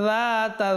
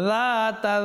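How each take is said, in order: Both takes have the same delivery.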